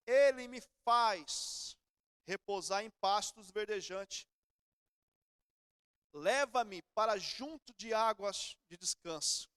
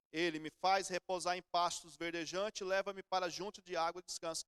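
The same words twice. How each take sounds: First: Very slow, each phrase drawn out; weighty, unhurried psalm recital; slow solemn scripture reading. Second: Said in the usual way. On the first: Shown as a demonstration. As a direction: read the psalm slowly and solemnly. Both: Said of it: "Davi fala assim".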